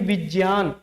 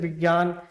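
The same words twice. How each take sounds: First: The middle consonant sounds like j. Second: The middle consonant sounds like g. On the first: This is the original, literal reading. The speaker calls it right. "तो ये होना चाहिए" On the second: This is the common everyday reading. The speaker calls it wrong. "इसको हम ज्ञा ज्ञा ज्ञा बोलते हैं, जैसे"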